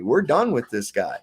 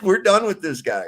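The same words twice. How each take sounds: First: Said in the usual way. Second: Higher, louder and relishing it; gleeful repeat. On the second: Retold or imitated. Retelling the villain's dismissal, gleeful and louder. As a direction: savour the line with a laugh in it.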